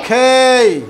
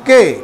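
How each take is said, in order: First: The k is said with a puff of air. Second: The k is said without a puff of air. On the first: The speaker calls it right. "কিন্তু এখন উচ্চারণ হবে খেই" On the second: The speaker calls it wrong. "আগে উচ্চারণ করতাম কে"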